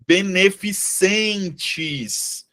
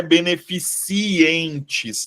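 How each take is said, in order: First: "beneficentes" drawn out slowly, no i after the c; correct pronunciation. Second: "beneficientes" said slowly with an extra i after the c; mistaken pronunciation. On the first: Teacher showing students the right word, slow careful pronunciation. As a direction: sound out "beneficentes" very slowly, ending -centes. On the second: Teacher warning students off the error, slow wrong pronunciation. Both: Shown as a demonstration. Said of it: "não é beneficientes".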